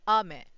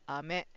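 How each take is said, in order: First: The accent is on the first syllable. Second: The accent is on the second syllable. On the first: The word means rain. "either it's stress on a" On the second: The word means candy. "or me"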